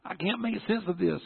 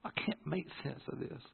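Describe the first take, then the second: First: High-pitched anguished plea; inner desperation. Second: Very soft, slightly high plea; quiet prayer. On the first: Son crying out inside to God, high desperate plea. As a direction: plead in a high voice. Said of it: "inside I'm going". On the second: Son talking to God beside sleeping dad, hushed plea. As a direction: confide it to God in a hush. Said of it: "I'm sitting here talking to God". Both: Retold or imitated.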